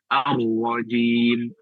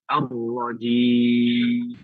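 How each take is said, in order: First: The final vowel is held briefly. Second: The final vowel is held very long. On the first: "bisa dua harokat" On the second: "bisa enam harokat"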